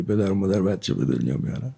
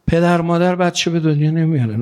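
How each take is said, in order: First: Mocking the wrong belief. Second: Said in the usual way. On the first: Shown as a demonstration. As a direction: lower and softer, a scoffing aside. (با لحن تمسخرآمیز و آهسته)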